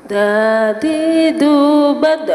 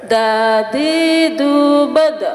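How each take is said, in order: No difference in how they are said.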